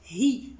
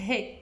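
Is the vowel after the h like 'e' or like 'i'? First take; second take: i; e. First: The vowel after h sounds like i. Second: The vowel after h sounds like e. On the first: The speaker calls it right. "je dois dire hi, him" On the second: The speaker calls it wrong. "je dois pas dire he, him"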